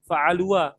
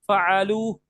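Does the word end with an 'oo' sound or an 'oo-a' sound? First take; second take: oo-a; oo. First: An extra 'a' vowel follows the final 'oo'. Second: The word ends on a plain 'oo' vowel. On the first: The speaker calls it wrong. "bukan dibaca jadi" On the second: The speaker calls it right. "Alifnya dibaca gak? Enggak, enggak dibaca"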